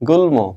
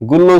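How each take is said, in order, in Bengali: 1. l-এর পরে একটি স্পষ্ট m ধ্বনি আসে। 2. m বাদ যায় এবং l দ্বিত্ব হয়। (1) "আমরা বলি গুল্ম" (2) "গুল্ল উচ্চারণ করি কি, নাও"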